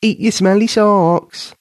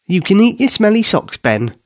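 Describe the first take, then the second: First: Slow, drawn-out mock taunt, higher; slow teasing singsong. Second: Higher, playful teasing; teasing laugh. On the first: Katie repeating her taunt slowly, laughing at Ben. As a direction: stretch it out to tease him. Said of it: "still laughing". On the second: Katie teasing Ben while laughing, higher and playful. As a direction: tease him with a grin. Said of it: "she laughed". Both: A narrator's reading.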